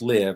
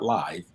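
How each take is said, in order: First: It sounds like the verb 'to live'. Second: It does not sound like the verb 'to live'. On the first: The speaker calls it right. "it's pronounced live, because you deserve to live" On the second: The speaker calls it wrong. "not live"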